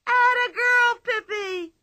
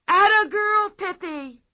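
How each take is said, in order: First: Higher, louder crowd cheer; crowd shrieking. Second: High, loud excited shriek; shrieking cheer. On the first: The whole circus crowd joining the cheer, shrieking. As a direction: scream it like a whole tent. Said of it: "began to shriek". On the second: Children cheering Pippi in the ring, shrieking. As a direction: cheer her on at the top of your voice. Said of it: "shrieked Tommy and Anika". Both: Acted.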